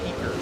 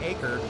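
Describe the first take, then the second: First: The name begins with a short 'eck' vowel. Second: The name begins with the vowel of 'acre'. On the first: The speaker calls it wrong. "not eker" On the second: The speaker calls it right. "So we say acre"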